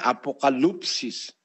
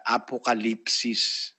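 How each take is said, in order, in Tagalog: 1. Ang patinig pagkatapos ng 'kal' ay parang 'u'. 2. Ang patinig pagkatapos ng 'kal' ay parang 'i'. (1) "kung babasahin mo... nakalagay apokalupsis" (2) "sa tamang pronunciation sa Grego... Katumbas yun ng I sa atin eh. Kaya apokalipsis"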